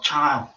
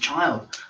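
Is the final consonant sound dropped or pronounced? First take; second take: dropped; pronounced. First: The final consonant sound is dropped. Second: The final consonant sound is clearly pronounced. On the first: The speaker calls it wrong. "not child" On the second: The speaker calls it right. "The word is child"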